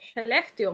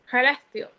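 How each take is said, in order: First: The first sound is a soft hushing sh sound. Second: The first sound is a guttural sound from the throat. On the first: This is how it is said in the north. "si la pronuncias aquí en el, en el norte, es Celestio, muy cercano a una H de nosotros" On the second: This is how it is said in the south. "en el sur, esa S K es más, se hace desde adentro, como con un gutural"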